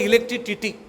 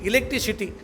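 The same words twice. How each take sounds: First: The fourth syllable starts with a t sound. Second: The fourth syllable starts with an s sound. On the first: The speaker calls it wrong. "चुकला, टी नाही सी" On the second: The speaker calls it right. "टी नाही सी"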